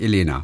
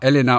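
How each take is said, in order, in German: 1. Der erste Vokal ist ein voller, klarer e-Laut. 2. Der erste Vokal ist ein kurzes, neutrales Schwa. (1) "und nicht Elena" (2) "Elena, und das ist das Schwa"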